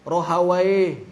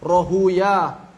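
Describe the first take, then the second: First: The name ends with an 'a-why' sound. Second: The name ends with an 'oo-yah' sound. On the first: This is how jurists read the name. "Menurut ahli fikih dibacanya" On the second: This is how hadith scholars read the name. "Kalau menurut Ahlul Hadis dibacanya Rahuyah"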